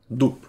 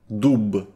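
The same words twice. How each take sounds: First: The final consonant is a voiceless p. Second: The final consonant is a voiced b. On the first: The speaker calls it right. "Кажемо глухо" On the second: The speaker calls it wrong. "Не кажемо то дзвонким «б»"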